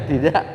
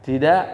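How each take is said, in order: No difference in how they are said.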